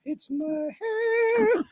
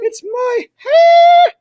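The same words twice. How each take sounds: First: High, slow, soft whimper; hammed-up whimper trailing off. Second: High drawn-out wail, half shouting; hammed-up anguished cry over his hair. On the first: Wail repeated, now soft. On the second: Mock-tragic outburst over hair.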